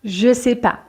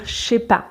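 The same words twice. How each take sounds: First: "je sais pas" with je still sounded fully; ne dropped. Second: "je sais pas" as two syllables, ché pa; je contracted. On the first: Teacher shows students first step, "je sais pas" with whole je. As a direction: say "je sais pas" in three syllables, no ne. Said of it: "on va enlever le ne". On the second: Teacher shows students casual French, "je sais pas" as ché pas. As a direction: drop the e so "je sais" becomes ché. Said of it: "on ne prononce pas le E de je". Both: Shown as a demonstration.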